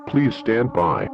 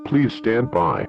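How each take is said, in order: Both takes have the same delivery.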